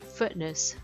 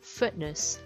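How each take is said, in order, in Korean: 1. 중간 t는 갑자기 끊어요. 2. 중간 t는 갑자기 끊어요.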